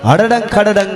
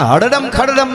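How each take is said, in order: First: Each word ends with an ng sound. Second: Each word ends with an m sound. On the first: The speaker calls it right. "હકીકતમાં હળડંગ ખડડંગ" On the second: The speaker calls it wrong. "હળડમ ખડડમ નહીં"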